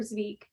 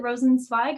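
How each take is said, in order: First: Zweig with a long EE vowel; Zweig as "zweeg". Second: Rosenzweig with the ending rhyming with "big" as in "bike", a long I; name ending as swige. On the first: Host offers another guess at the surname, Zweig said "zweeg". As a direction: say Zweig to rhyme with "league". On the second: Host asks speaker about her surname, Rosenzweig said with an "eye" vowel. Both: Shown as a demonstration. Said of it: "could you please pronounce your last name".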